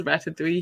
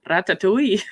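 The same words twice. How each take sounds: First: Said in the usual way. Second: "Ratatouille" rolled out in a hammed-up Scottish accent, mimicking a friend; imitating Logan's put-on Scottish brogue on "Ratatouille"; fake Scottish accent. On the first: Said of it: "like, a fake exaggerated Scottish accent". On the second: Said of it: "he always puts on, um, like, a fake exaggerated Scottish accent".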